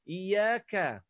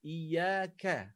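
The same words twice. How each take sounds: First: Iyaka with a heavy, loud ka; wrong iyaka. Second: Iyaka with a thin light ka. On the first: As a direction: push the ka in iyaka too hard. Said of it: "Bukan iyaka". (iyaka dengan ka tebal) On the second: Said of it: "ka ni nipis". (iyaka dengan ka nipis) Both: Shown as a demonstration.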